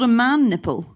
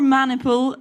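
First: It sounds like the two words man nipple. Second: It sounds like the single word maniple. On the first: The speaker calls it wrong. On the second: The speaker calls it right.

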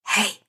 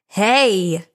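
First: It is said more quietly. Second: It is said more loudly.

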